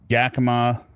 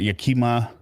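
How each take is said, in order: First: The name is said the local way. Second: The name is said the outsider way. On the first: The speaker calls it right. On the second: The speaker calls it wrong.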